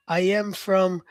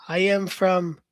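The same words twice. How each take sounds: The two takes are said the same way.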